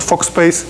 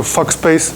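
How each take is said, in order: First: "Fock space" with a rounded "o" as in "fork"; correct pronunciation. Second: "fuck space" said with the vowel of "fuck", as a joke; a playful mispronunciation of "Fock" as "fuck space"; joking mispronunciation. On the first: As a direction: put it right: "Fock space" with an "o" sound. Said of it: "So it was Fock, not". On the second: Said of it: "which is called Fock space". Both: Shown as a demonstration.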